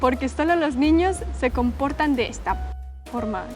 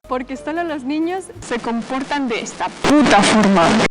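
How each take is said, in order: First: It is read in a calm, plain way. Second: It is read with angry, forceful emphasis.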